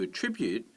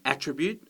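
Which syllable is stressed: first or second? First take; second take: second; first. First: The stress is on the second syllable. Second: The stress is on the first syllable. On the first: It is a verb. "it comes as the second syllable" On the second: It is a noun. "it's a noun at the beginning"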